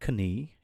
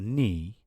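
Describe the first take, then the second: First: A k sound is heard before the n. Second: No k sound is heard before the n. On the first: The speaker calls it wrong. "not knee" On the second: The speaker calls it right. "G and K are always silent when they come before N"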